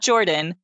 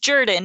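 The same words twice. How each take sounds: First: The name has the common Northern pronunciation. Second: The name has its local Southern pronunciation. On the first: The speaker calls it wrong. "not Jordan" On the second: The speaker calls it right. "his name is Jordan"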